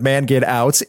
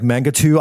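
First: It is said as English words, man get out. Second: It is said French-style, like manga too. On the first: The speaker calls it right. "it's all one word" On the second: The speaker calls it wrong. "I thought it was French"

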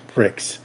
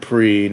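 First: The word ends with a 'ks' sound. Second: The word ends in a vowel, no 'ks'. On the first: The speaker calls it wrong. "not pricks" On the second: The speaker calls it right. "we said pre"

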